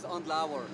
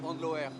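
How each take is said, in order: First: The name is pronounced the German or English way. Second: The name is pronounced the French way. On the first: "the German and English one is Andlauer" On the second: "if you say in French, it's like Andloer"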